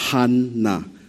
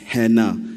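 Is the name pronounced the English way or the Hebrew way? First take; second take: Hebrew; English. First: The name is said with Hebrew sounds. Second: The name is said with English sounds.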